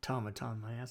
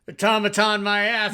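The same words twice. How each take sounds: First: It is mumbled quietly under the breath. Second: It is said out loud at high volume. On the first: The character grumbles privately to himself. "Steele's mumbling" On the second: Everyone around can hear the complaint. "He's saying it real loud"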